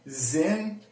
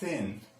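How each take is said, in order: First: It begins with a buzzing z sound. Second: It begins with a soft th sound. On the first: The speaker calls it wrong. "it's not zin" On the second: The speaker calls it right. "it's thin"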